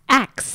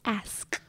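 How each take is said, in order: First: The word ends with a ks sound, like axe. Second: The word ends with an sk sound, like ask. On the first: The speaker calls it wrong. "It's not ass, axe" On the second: The speaker calls it right. "it's ask"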